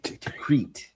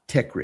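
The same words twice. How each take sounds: First: It is said with an Arabic-style pronunciation. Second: It is said with an English-style pronunciation. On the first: The speaker calls it right. "It's Tikrit" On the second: The speaker calls it wrong. "not Tikrit"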